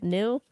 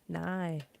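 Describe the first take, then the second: First: The syllable is said like 'nil', short i. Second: The syllable is said like 'nigh', long i. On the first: The speaker calls it wrong. "I keep wanting to say it in nil. I'm like, that's wrong" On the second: The speaker calls it right. "No. Nigh"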